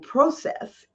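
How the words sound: The word is said the Canadian way.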